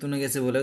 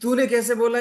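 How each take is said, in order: First: The phrase is said softly and calmly. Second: The phrase is shouted loudly. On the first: The other person will answer calmly. "आप आराम से बोलो" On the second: The other person will shout back. "अगर आप चिल्लाते हो"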